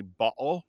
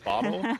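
First: Bottle with a glottal stop for the T; Cockney bottle, T dropped to a throat catch. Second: Said in the usual way. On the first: Shown as a demonstration. Host imitating famous Cockney example, glottal bottle. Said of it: "the famous Cockney bottle". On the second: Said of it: "instead of bottle".

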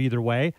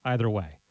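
First: "either" starting with a long ee; EE-ther pronunciation. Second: "either" starting like the word eye; EYE-ther pronunciation. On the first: Host jokes about both pronunciations, "either" as EE-ther. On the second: Host jokes about both pronunciations, "either" as EYE-ther. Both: Shown as a demonstration. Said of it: "they're both acceptable pronunciations".

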